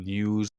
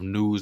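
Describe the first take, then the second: First: It starts with a 'ny' sound, English accent. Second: It starts with a plain N sound.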